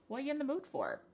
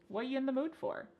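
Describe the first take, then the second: The two takes are said the same way.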